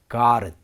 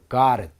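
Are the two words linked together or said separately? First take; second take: linked; linked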